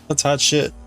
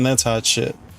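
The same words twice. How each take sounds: First: It is said in an impressed, approving tone. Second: It is said in a disgusted, disapproving tone. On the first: The thing is great. "the first one was good" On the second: The thing is terrible. "the second one was bad"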